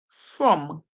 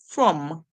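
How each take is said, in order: Both takes have the same delivery.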